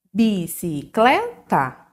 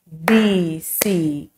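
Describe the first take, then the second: First: "Bicicleta" said very slowly as bi-ci-cle-ta; syllables again. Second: "Bicicleta" said slowly, split as bi-ci-cle-ta; clapped syllables. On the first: Teacher repeating the clapped syllables for the children. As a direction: break "Bicicleta" into four slow syllables. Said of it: "Vamos de novo". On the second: Teacher clapping the syllables of bicicleta with the class. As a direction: clap out each syllable of "Bicicleta". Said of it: "nós batemos palmas". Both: Shown as a demonstration.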